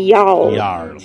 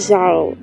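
First: It starts with a y sound, like Nordic J. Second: It starts with a zh sound, like Portuguese J. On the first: The speaker calls it right. "é Jarl" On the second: The speaker calls it wrong. "não é Jarl"

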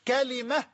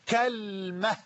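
First: Open first vowel, then an i after the l. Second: First vowel is a, the l has no vowel. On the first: "بفتح الكاف وكسر اللام" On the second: "بفتح الكاف وتسكين اللام"

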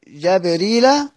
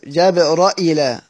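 First: No glottal stop follows the r sound. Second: A glottal stop follows the r sound. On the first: "سيدنا ابن كثير جابريلا" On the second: "نفس القراءة بس بالهمزة سيدنا شعبة"

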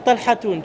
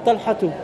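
First: The name ends with an added n sound. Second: The name ends on a vowel without n. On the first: The speaker calls it wrong. "Tu ne dis pas Talhatoun" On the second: The speaker calls it right. "Tu diras Talhatou"

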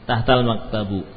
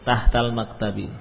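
First: The last word ends with a u vowel. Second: The last word ends with an i vowel. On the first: The speaker calls it wrong. "tidak mungkin, abadan tidak mungkin" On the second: The speaker calls it right.

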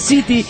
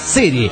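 First: The middle consonant is a clear t sound. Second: The middle consonant sounds close to an l. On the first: "Se escribe City" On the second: "se dice City"

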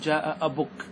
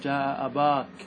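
First: The vowel after the b is a short u. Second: The vowel after the b is a long a. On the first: This is the shortened form without the long vowel. "تنقصها، تحذفها، وتكتفي بالضمة" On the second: This form keeps the long a in every case. "أن تقتصر على الألف رفعا ونصبا وجرا"

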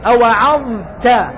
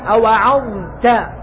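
No difference in how they are said.

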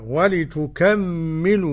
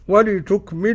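First: The m sound is doubled and held longer. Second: The m sound is short and single.

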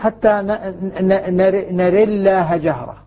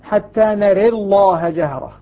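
First: The l in Allah is light and thin. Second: The l in Allah is heavy and full. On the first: "الترقيق مثلا" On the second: "والتفخيم"

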